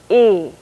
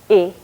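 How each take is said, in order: First: The vowel is held for longer. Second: The vowel is held briefly. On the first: "a long vowel" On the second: "a short vowel"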